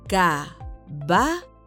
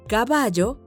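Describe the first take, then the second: First: It is said slowly, syllable by syllable. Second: It is said at normal speed.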